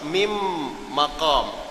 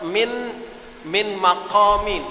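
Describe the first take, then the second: First: The n merges into the following m sound. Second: The n is pronounced clearly before the m. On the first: The speaker calls it right. "eh silap" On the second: The speaker calls it wrong. "Jangan kita baca"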